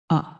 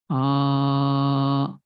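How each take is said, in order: First: The vowel is held very briefly. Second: The vowel is drawn out very long. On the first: "If you use one unit of time to pronounce that letter, then it becomes hrasva" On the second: "more than two unit of time, then it becomes pluta. ... long time"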